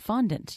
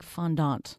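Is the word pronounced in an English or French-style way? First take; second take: English; French-style. First: It is pronounced the anglicized English way. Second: It is pronounced with a French-style pronunciation. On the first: The speaker calls it right. "I thought the word was fondant" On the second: The speaker calls it wrong. "they say things like fondant"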